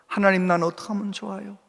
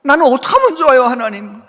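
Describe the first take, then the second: First: Quiet tearful prayer. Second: Louder, higher anguished plea to God; crying out in prayer. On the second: Pastor crying alone to God, mock anguished louder plea. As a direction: pour it out like a desperate pastor. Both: Retold or imitated. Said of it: "그러면서 막 울어".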